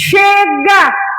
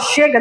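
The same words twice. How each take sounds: First: It is said loudly, with force. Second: It is said weakly, without force.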